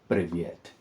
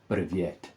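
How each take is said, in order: First: It is said with a Russian accent. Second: The same.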